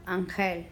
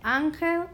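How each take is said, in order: First: "ángel" as an-GEL, pitched lower; stress on last syllable. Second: "ángel" as ÁN-gel; stress on first syllable. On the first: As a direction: move the weight onto GEL in "ángel". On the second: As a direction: hit ÁN in "ángel", lighter second syllable. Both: Shown as a demonstration. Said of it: "listen to where we hear the stress".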